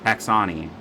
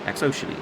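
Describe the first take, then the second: First: The name is said to rhyme with Dasani. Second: The name is said with the word ocean inside. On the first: The speaker calls it wrong. "like Dasani water" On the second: The speaker calls it right. "Ocean E"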